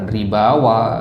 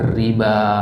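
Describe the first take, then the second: First: A w sound is said at the end. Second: No w sound is said at the end. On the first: The speaker calls it wrong. "bukan ribawa ya" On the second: The speaker calls it right. "riba tetap"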